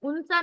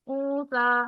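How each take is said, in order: First: The n sound is pronounced clearly. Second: The n is hidden as a nasal sound. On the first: The speaker calls it wrong. "उनसा नहीं पढ़ेंगे" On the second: The speaker calls it right. "उसकी आवाज को छुपा लेंगे"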